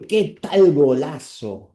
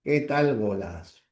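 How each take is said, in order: First: "¿Qué tal golazo?" drawn out slowly and louder, voice changed; a slow, loud first try at "¿Qué tal golazo?" that gets rejected; exclaimed, wrong take. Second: "¿Qué tal golazo?" with a clear falling tune from "qué"; falling exclamation. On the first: ("¿Qué tal golazo?" exclamado lento y más fuerte, versión descartada) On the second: ("¿Qué tal golazo?" con entonación descendente marcada) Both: Shown as a demonstration. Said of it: "No, así".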